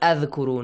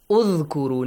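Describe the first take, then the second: First: The word begins with an 'a' vowel. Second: The word begins with an 'u' vowel. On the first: The speaker calls it wrong. "not adhkuru" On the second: The speaker calls it right. "So, Dhamma"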